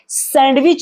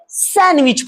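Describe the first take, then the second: First: The d sound is clearly pronounced. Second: The d sound is silent. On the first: The speaker calls it wrong. "इसे सैंडविच नहीं" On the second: The speaker calls it right. "इसे सैंडविच पढ़ेंगे"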